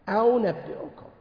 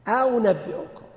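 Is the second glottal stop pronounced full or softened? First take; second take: softened; softened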